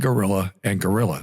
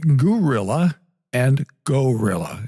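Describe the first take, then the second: First: The two words are pronounced exactly the same. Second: The two words are pronounced distinctly differently. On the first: "normally when we pronounce them" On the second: "if I were really exaggerating the pronunciation"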